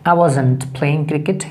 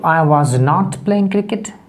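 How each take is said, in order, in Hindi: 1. Was और not एक संक्षिप्त (contracted) शब्द में जुड़ जाते हैं। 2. Was और not को दो पूरे शब्दों की तरह बोला जाता है। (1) "स्पोकन इंग्लिश में इस तरह बोला जाता है" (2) "वॉज प्लस नॉट लगेगा"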